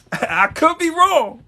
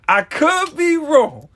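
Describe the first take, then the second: First: High, slow words through laughter; chuckling mock modesty; laughing. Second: Slow, high, laughing through "I could be wrong"; laughing again. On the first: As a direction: laugh it off as you concede. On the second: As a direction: keep laughing as you repeat it. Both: Real, not acted. Laughing at his own claim.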